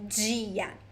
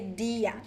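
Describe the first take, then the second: First: It begins with a j-like sound. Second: It begins with a plain d sound. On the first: This is the most common form in Brazil. "the most common one is dia" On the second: This is a regional variation. "in some places, people would say dia"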